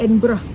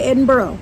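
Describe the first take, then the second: First: The ending sounds like 'burra'. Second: The ending sounds like 'burg'. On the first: The speaker calls it right. "It's Edinburgh" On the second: The speaker calls it wrong. "Don't say Edinburgh"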